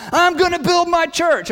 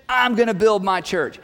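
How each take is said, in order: First: Raised higher and louder, declaring it; emphatic Jesus line. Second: Said in the usual way. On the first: Retold or imitated. Preacher voicing Jesus to the congregation, emphatic and raised. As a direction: proclaim it like a promise no one can stop.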